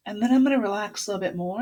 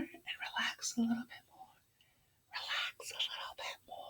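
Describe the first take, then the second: First: Said in the usual way. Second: Hushed, trailing off to almost nothing; fading whisper. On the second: Shown as a demonstration. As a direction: soften down into a bare whisper. Voice mimics the relaxing hand.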